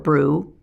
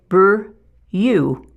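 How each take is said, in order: First: The vowel is said as a plain 'oo' sound. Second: The vowel is said as a 'you' sound. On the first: The speaker calls it right. "the oo sound for brew" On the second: The speaker calls it wrong. "they try to force out that U sound"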